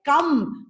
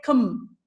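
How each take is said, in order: First: "come" drawn out with a full vowel; the unreduced "come", shown as the wrong way; overly clear vowel. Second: "cum" short with an unclear, neutral vowel; weak, unstressed "cum"; reduced vowel. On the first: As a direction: pronounce the vowel of "come" fully. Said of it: "We don't say come". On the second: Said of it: "It is not pronounced clearly". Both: Shown as a demonstration.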